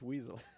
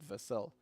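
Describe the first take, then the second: First: The name is said with an English pronunciation. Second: The name is said with a non-English pronunciation. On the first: "if I try to Englishify it" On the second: "If I pronounce it in my own language"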